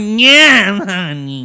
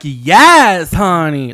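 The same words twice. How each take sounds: First: High, loud "Yeah" dropping into "honey"; sassier impression. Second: Lightly sassy "Yes, honey" with a loud Yes; drag-queen sass. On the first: Correcting the co-host's impression, high and sassy. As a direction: push the sass up high. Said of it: "But it's not like that". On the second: Retold or imitated. Describing the singer's voice to the co-host, lightly sassy. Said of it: "she talks like that".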